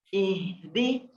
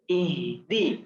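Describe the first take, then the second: Both takes have the same delivery.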